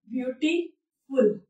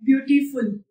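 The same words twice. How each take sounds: First: ब्यूटीफुल slowly split as ब्यूटी... फुल; softer, slow breakdown of ब्यूटीफुल; broken into syllables. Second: Said in the usual way. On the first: Shown as a demonstration. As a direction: say "ब्यूटीफुल" slowly with a clear pause before फुल. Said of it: "जितनी बार भी रुकावटें आती हैं". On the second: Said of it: "देखिए आपने जब बोला".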